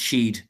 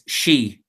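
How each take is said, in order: First: It is one syllable ending in a d sound. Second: It is one syllable ending in an ee sound. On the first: This is the oldest form. "an older pronunciation than that, which is Sheed" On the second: This is the modern form. "the modern Irish pronunciation is she"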